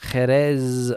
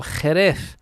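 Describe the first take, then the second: First: Jerez slowly, ending in an s/z sound; throaty J, sibilant ending on Jerez. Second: Jerez slowly, ending in th, "Hereth"; lisped Z. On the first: Listener asks about the rules, Jerez with a sibilant ending. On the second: Listener asks about the rules, Jerez ending in th. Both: Shown as a demonstration. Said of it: "I wish I knew the rules for pronunciation".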